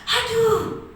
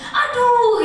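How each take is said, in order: First: High, delighted falling "aduh"; gleeful, as if handed a present; happy "aduh". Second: Loud, high cry of pain; pained "aduh". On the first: Coach demonstrates the same word as joy, happily delighted. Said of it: "gembira, senang, dapat hadiah mungkin". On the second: Coach demonstrates one word as hurting, loud pained cry. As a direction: yelp it as if hurt. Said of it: "Iya, sakit". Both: Shown as a demonstration.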